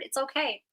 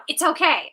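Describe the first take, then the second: First: Softer, gentle it's okay; soft reassurance. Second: Firm, reassuring it's okay; a coach's steady reassurance. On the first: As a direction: let them off the hook kindly. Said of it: "that's the way it's wired". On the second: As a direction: tell them plainly it's fine. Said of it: "I just wanna let you know". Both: Shown as a demonstration.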